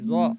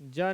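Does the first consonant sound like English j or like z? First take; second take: z; j. First: It begins with a z-like sound. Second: It begins with a plain j sound. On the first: The speaker calls it right. "ज़ुबान को ले जाइए मसूड़े तक, तब ना वो ज़ा होगा।" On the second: The speaker calls it wrong. "जा नहीं"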